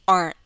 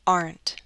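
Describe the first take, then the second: First: The final T is a glottal stop. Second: The final T is fully released. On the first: "now I'll use a glottal stop" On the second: "let me read it first with a true T"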